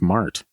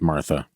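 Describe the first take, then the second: First: The name ends without any final vowel. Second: The name ends with an added 'a' vowel. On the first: The speaker calls it right. "but I guess it's Mart" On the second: The speaker calls it wrong. "I definitely would have said Martha"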